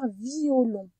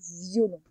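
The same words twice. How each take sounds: First: The i and o are separate syllables. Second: The i glides into o as a y sound. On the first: "on aurait pu dire violon. Il y a deux manières de le dire" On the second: "on l'entend dans la première syllabe, le Y"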